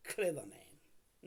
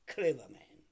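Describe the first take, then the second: First: Slow emphasis. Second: Loud emphasis. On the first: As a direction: draw out "clever man." very slowly. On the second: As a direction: bark out "clever man" sharply and loudly. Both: Real, not acted. Repeats the phrase for emphasis.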